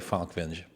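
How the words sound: The name has an American pronunciation. The speaker calls it wrong. "Americans say Falkvinge"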